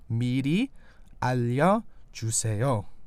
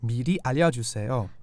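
First: It is said slowly, syllable by syllable. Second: It is said at a quicker pace.

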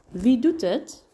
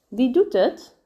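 First: The word het is reduced and softened. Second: The word het is reduced and softened.

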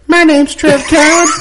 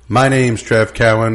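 First: It is said in a put-on cool way. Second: It is said in a plain, ordinary way.

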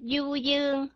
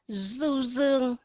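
First: It is said in a Southern Vietnamese accent. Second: It is said in a Northern Vietnamese accent.

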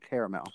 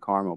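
First: The word is said with three syllables. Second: The word is said with two syllables. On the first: This is the speaker's own usual pronunciation. "but I pronounce it caramel. Has two A's" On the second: This is how people in California might say it. "since you've been in California now, you might say caramel"

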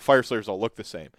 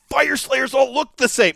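First: It sounds negative and disgusted. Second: It sounds excited and positive.

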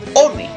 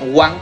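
First: It is said as spelled, with two syllables 'o-ne'. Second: It is said like English 'one', as 'wan'. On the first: The speaker calls it right. "sino One, sí, tal y como se escribe" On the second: The speaker calls it wrong. "no se pronunciaría Juan como uno en inglés"

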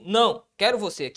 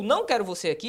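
First: It is said with a pause after não. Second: It is said without a pause after não.

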